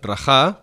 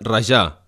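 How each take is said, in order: First: The j has a harsh Spanish-style throat sound. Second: The j has a soft Catalan zh sound. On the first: This is the borrowed Castilian verb. The speaker calls it wrong. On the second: This is the genuine Catalan verb. The speaker calls it right.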